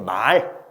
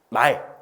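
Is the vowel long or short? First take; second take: long; short. First: The vowel is held long. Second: The vowel is held short. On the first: It means spoken words. "길게 말하는 ... 이렇게 말로 하는 요게 말이 되겠죠" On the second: It means a horse you ride. "요거는 그냥 우리가 말 뭐다? 타고 다니는 말이고"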